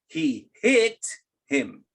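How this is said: The word hit is stressed. He was struck, not necessarily on purpose. "So if you accent hit"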